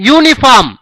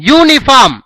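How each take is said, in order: No difference in how they are said.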